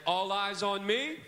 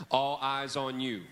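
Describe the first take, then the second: First: Loud, slow, rising call for attention. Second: Chanted, slow, firm reply; chanted, answer back as the class would; response chant. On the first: Teacher calling the kids to look at him. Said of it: "I may say something like this". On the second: Chanted, teacher modelling the kids' answer. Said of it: "you'll look at me and you'll say". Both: Shown as a demonstration.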